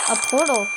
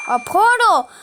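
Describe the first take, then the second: First: Said in the usual way. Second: Louder, higher, thrilled realisation; excited. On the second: Real, not acted. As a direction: say it with sudden delight.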